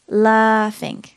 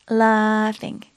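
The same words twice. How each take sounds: Both takes have the same delivery.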